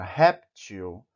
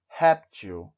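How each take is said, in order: First: Said in the usual way. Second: "Réptil" with RÉP hit hard and louder, til falling away; stressed first syllable. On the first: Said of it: "tem um acento na primeira sílaba". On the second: Shown as a demonstration. Teacher showing Spanish speakers where "Réptil" takes its stress, RÉP hit loud. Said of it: "deve ser pronunciada mais forte".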